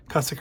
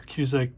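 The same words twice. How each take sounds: First: Cusick said as CUSS-ik; alternative pronunciation. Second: Cusick said as KYOO-zik; alternative pronunciation. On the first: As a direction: say Cusick with a short "uh" first vowel. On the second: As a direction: say Cusick with a "cue" first syllable. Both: Shown as a demonstration. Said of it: "the way to pronounce it".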